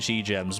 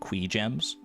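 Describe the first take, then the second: First: The first word begins with a 'ch' sound. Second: The first word begins with a 'k' sound. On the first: This is the speaker's own habitual pronunciation. "I'm going to keep saying chi gems" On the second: This is the game creator's official pronunciation. "the official pronunciation, or at least Concerned Apes pronunciation"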